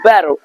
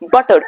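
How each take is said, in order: First: The middle T is a soft, quick flap. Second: The middle T is a hard, crisp stop. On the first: The speaker calls it right. "it's butter" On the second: The speaker calls it wrong. "It's not butter"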